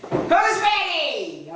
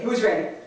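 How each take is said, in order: First: Slow, drawn-out, higher call to the crowd; rallying call. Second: Said in the usual way. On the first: Shown as a demonstration. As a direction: stretch it out like a hype man.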